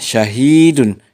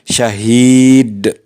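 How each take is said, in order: First: The word ends with an -un sound. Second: The word ends on a bare d sound. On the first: The word is read without stopping. "asalnya syahidun" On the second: The reader stops at this word. "Apabila diwakafkan dibaca syahid"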